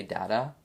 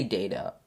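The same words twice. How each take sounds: First: "data" as DAT-uh, short first a; older-generation "data", first syllable like "dad"; short-a pronunciation. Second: "data" as DAY-tuh, long first a; long-a pronunciation. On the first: Retold or imitated. Podcaster quoting earlier generations, "data" said DAT-uh. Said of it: "three, four generations back, people would say data". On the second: Shown as a demonstration. Podcaster giving their own version, "data" said DAY-tuh. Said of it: "but I say data".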